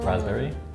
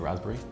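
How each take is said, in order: First: Every part of the word is said fully. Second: The word is said in a shortened, casual way. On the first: "some people might say the full raspberry" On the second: "just casually you would probably just say raspberry"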